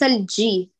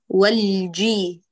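First: The j sound is breathy and weak. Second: The j sound is firm and fully voiced. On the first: The speaker calls it wrong. "ليس الجي، الجي لا تهمي" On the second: The speaker calls it right. "هاتيها شديدة مجهورة"

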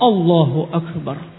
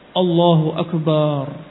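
First: No sound is lengthened; it is said directly. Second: The ba sound in Akbar is lengthened. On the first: The speaker calls it right. "Langsung Allahu Akbar" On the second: The speaker calls it wrong. "kesalahan-kesalahan ba-nya panjang"

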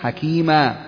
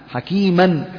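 First: The word ends with a long 'a' vowel. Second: The word ends with an 'n' sound.

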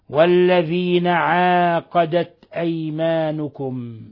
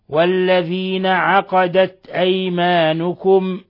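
First: The verb is said 'aaqadat' with a long vowel. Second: The verb is said 'aqadat' with a short vowel. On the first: "بإثبات ألف بعد العين" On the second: "بحذف الألف"

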